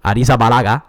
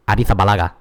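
First: The z is said as a hard sound. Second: The z is said as a soft sound. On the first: The speaker calls it wrong. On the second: The speaker calls it right.

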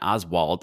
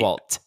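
First: The name ends with a D sound. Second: The name ends with a clear T sound. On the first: The speaker calls it wrong. "Everyone calls him Patton Oswalt, like he's Oswald Cobblepot" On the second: The speaker calls it right. "It's Oswalt. Yeah, that's right. No one says that"

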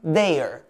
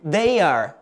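First: It is said as one shorter contracted form. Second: It is said as two full words. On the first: "Quando eu abrevio eu digo" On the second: "No verbo to be normal eu digo"

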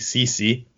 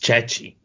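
First: The name is said with English-style pronunciation. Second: The name is said with Italian-style pronunciation. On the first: The speaker calls it wrong. "they say Ceci" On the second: The speaker calls it right. "I'm being a snobby Italian person right now. It's Cecchi"

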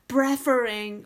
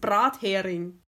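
First: The word is pronounced with an English-style accent. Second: The word is pronounced with a plain German accent. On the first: The speaker calls it wrong. "dass man immer so es möglichst englisch aussprechen will" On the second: The speaker calls it right. "Und dann hieß es"

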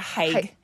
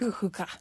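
First: The word is said as one syllable. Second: The word is said as two syllables. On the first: The speaker calls it wrong. "people pronounce it haig" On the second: The speaker calls it right. "it's actually pronounced like hookah"

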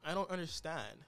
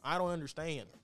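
First: It is said in a plain accent. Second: It is said with a country twang. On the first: The speaker calls it wrong. "she didn't say it like that" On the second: The speaker calls it right. "She said it with more of a country twang"

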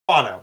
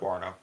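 First: The word is said without an R sound. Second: The word is said with an R sound. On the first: The speaker calls it right. "Guano, not guarno" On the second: The speaker calls it wrong. "not guarno"

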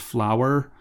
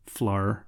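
First: The word is said in a standard accent. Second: The word is said in a regional accent. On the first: "What I'm saying is" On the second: "in my accent, it sounds like"

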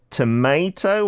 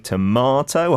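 First: The word is said with an American pronunciation. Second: The word is said with a British pronunciation.

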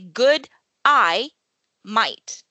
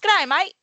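First: The phrase is said slowly, word by word. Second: The phrase is said fast, run together.

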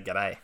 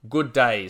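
First: The words are squeezed into one short word. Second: Both words are said fully and separately.

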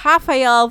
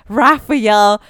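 First: The name begins with an H sound. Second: The name begins with an R sound.

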